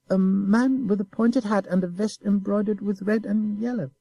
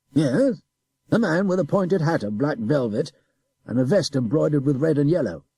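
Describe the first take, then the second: First: High, innocent sing-song repeat; mocking child echo. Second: Brisk, louder officer giving the description; officer describing. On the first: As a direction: echo him like a sly child. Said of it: "don't repeat my questions". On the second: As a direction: list the details firmly. Adjutant describes the man. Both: A narrator's reading.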